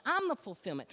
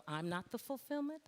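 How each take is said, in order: First: Loud, raised-pitch declaration; emphatic divine correction. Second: Mock mistaken belief. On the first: Retold or imitated. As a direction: assert it forcefully as God would. God's correction of false belief. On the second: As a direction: echo the false belief back, pitched up.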